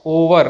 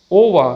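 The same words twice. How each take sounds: First: Over with a final r; sounded r. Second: Over ending in "ah"; silent r. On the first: Teacher shows the mistake, final r sounded. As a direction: pronounce the r ending over. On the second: Teacher models the correct word, final r silent. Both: Shown as a demonstration.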